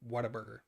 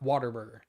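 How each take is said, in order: First: The first part sounds like 'what', with no R. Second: The first part sounds like 'water', with an R. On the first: The speaker calls it right. "I say Whataburger. There's no R in there" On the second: The speaker calls it wrong. "Not Waterburger"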